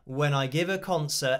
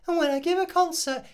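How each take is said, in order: First: It is said in a full normal speaking voice. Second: It is said in a high, thin voice.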